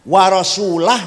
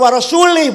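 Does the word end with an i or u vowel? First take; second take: u; i. First: The word ends with an u vowel. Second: The word ends with an i vowel. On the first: The Messenger also does not protect the idolaters. The speaker calls it right. "Karo warasulah bacanya" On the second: God does not protect the Messenger either. The speaker calls it wrong. "Kalau warasuli bacanya"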